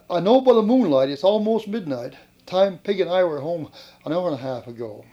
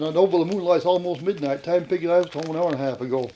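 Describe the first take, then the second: First: It is said slowly. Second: It is said at normal speed.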